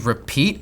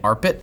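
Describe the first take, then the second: First: It is said like the word 'repeat'. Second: It is said 'arpit', rhyming with 'carpet'. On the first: "I don't know if it's supposed to be repeat" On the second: "I've been pronouncing it arpit, like carpet"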